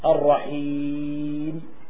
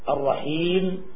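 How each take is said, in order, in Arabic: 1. الحركة التي قبل الميم الأخيرة متوسطة. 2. الحركة التي قبل الميم الأخيرة قصيرة. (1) "التوسط" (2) "القصر"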